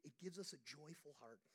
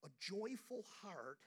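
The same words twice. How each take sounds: First: Said in the usual way. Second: Slow, leaning hard on joyful; stress on joyful. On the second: Shown as a demonstration. Preacher repeating the phrase, stretching out joyful. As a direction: draw out joyful for the congregation.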